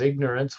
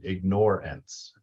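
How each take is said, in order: First: The word is pronounced the usual way. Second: The word is pronounced in an altered way.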